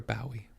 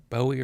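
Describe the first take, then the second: First: Second Bowie said as BOW-ee; OW pronunciation. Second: First Bowie said as BOH-ee; long O pronunciation. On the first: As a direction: say Bowie with the vowel of cow. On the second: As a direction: say Bowie to rhyme with snowy. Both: Shown as a demonstration. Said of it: "is it Bowie or Bowie?".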